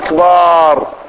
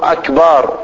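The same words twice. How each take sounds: First: The vowel before the final r is drawn out. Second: The vowel before the final r is short. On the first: The speaker calls it wrong. "مو أفعال" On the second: The speaker calls it right. "أكبر على وزن أفعل"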